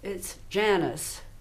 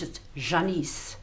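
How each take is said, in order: First: The name is said in a Texan drawl. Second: The name is said in a French accent.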